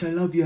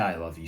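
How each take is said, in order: First: It is said in an overeager, gushing way. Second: It is said in a calm, composed way.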